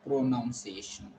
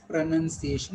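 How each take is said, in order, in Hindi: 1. दूसरा अक्षर 'noun' जैसा सुनाई देता है। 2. दूसरा अक्षर 'nun' जैसा सुनाई देता है। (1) "and not pronunciation" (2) "It is pronunciation"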